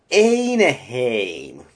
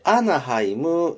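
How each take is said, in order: First: It is said with American English-style pronunciation. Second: It is said with Japanese katakana-style pronunciation. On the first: The speaker calls it right. "英語っぽく" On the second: The speaker calls it wrong. "アナハイムではなくて"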